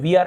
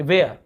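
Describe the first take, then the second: First: वियर, rhyming with "ear"; common ee mispronunciation. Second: वेयर, rhyming with "air"; ay-er vowel. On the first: Teacher copying a common slip for students, वियर with "ee-er". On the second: Teacher correcting a common slip for students, वेयर with "ay-er". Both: Shown as a demonstration. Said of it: "बहुत से लोग वियर ऐसे बोल देते हैं".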